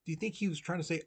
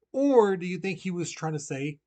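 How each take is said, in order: First: Said in the usual way. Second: "Or" said louder and higher to set up the other choice; stress on Or. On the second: Shown as a demonstration. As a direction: lean on the word "Or".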